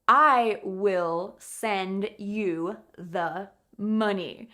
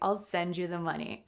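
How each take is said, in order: First: It is said dramatically, with the full form. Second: It is said normally, with the contracted form. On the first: The speaker calls it wrong. "I would never say it like that unless I was being very dramatic" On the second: The speaker calls it right. "in a normal way"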